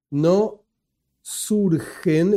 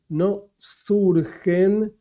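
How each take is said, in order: First: Said in the usual way. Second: "no surgen" drawn out very slowly, surgen underlined; stress on surgen. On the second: Shown as a demonstration. Teacher to students, stressing "surgen" very slowly. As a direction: stretch "surgen" syllable by syllable so it sinks in. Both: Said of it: "esta palabra fundamental, subrayada".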